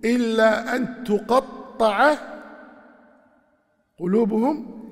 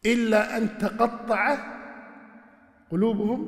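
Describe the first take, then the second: First: تقطع said as tuqaṭṭaʿa, with a damma on the ta, slow and clear; second reading. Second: تقطع said as taqaṭṭaʿa, first of three readings. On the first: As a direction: read تقطع as tuqaṭṭaʿa, louder and drawn out. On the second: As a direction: read تقطع with a fatha on the ta, slow and clear. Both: Shown as a demonstration. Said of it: "وفيها ثلاث قراءات".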